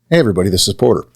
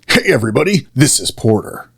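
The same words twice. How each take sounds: First: It is said in a plain natural voice. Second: It is said in a pushed, altered character voice.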